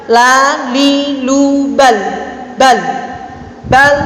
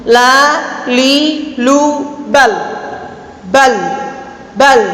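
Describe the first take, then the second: Both takes have the same delivery.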